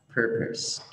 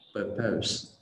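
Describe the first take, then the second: First: The stress is on the first syllable. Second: The stress is on the second syllable. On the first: The speaker calls it right. "từ này là purpose, purpose, không phải purpose" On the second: The speaker calls it wrong. "trọng âm rơi vào âm tiết thứ hai"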